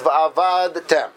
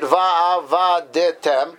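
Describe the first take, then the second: First: The d closes its syllable with no vowel. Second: A short vowel follows the d sound. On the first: The speaker calls it right. "the real accurate way of reading it is" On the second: The speaker calls it wrong. "making the dalet, it pronounced shva, an active shva, a shvana"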